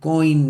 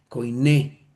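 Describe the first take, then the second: First: It is said as one syllable, like coin. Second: It is said as koiné, ending in a stressed e. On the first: The speaker calls it wrong. "no coin" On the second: The speaker calls it right. "la verdadera forma como lo se podría pronunciar"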